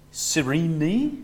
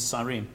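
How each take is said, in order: First: The name is pronounced in an Italian-sounding way. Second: The name is pronounced in a plain, non-Italian way. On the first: Some people say it this way. "which is sounding something slightly Italian" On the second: This is the form the speaker settles on. "But anyway, it's Cyrene"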